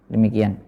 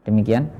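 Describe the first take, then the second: No difference in how they are said.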